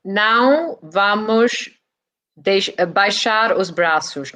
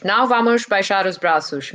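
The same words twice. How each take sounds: First: "Não vamos baixar os braços" spoken very slowly, syllable by syllable; slow Portuguese demo. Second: "Não vamos baixar os braços" at normal speed; "Não vamos baixar os braços" said fluently, as in normal talk; plain Portuguese. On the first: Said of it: "repeat that for us and teach us". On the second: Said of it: "teach us a bit of Portuguese". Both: Shown as a demonstration.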